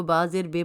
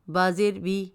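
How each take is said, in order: First: "بے" said with an ay vowel; mistaken ay vowel. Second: "بی" said with a long ee vowel; correct long ee. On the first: Narrator showing how she misread it, ay vowel in "بے". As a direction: say "بے" to rhyme with English "say". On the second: Narrator showing the correct Quranic vowel, long ee in "بی". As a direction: say "بی" to rhyme with English "see". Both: Shown as a demonstration. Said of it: "مگر وہ بازیر بے پڑھتی تھی".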